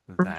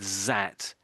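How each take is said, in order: First: It begins with a th sound. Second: It begins with a z sound. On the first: The speaker calls it right. "So this particular word is that" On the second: The speaker calls it wrong. "I can't remember if you said zat or dat"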